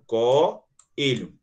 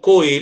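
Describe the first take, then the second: First: The o and e fall in separate syllables. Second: The o and e merge into one syllable. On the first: The speaker calls it right. "Eu separo co-elho" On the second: The speaker calls it wrong. "Eu não falo coelho"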